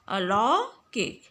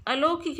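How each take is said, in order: First: अलौकिक slowly, with open "au"; correct pronunciation. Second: अलौकिक with a closed "o", "alokik"; wrong pronunciation. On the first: Teacher giving pupils the right form, अलौकिक slow with open "au". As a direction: draw out अलौकिक as "a-lau-kik". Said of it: "बल्कि क्या बोलते हैं". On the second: Teacher showing pupils the mistake, अलौकिक with "o". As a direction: say अलौकिक quickly as "a-lo-kik". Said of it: "अलौकिक नहीं कहते हैं". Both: Shown as a demonstration.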